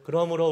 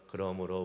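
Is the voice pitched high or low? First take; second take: high; low. First: It is read at a raised, bright pitch. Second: It is read at a low, flat pitch. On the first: The speaker calls it right. "도레미파솔 ... 이렇게 해야지" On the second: The speaker calls it wrong. "이게 아니라"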